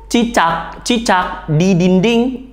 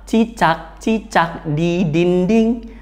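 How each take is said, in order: First: It is said in a loud voice. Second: It is said in a quiet voice. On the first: "mengucapkannya dengan keras" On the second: "Atau yang lemah"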